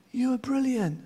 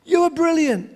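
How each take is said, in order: First: Softer, higher distant repeat; valley echoes the praise back. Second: High, raised praise; boy calls praise into the valley; called out. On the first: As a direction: let the echo answer faintly. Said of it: "And the voice came back". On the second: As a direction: call the praise across the valley. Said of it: "shouted out". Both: Retold or imitated.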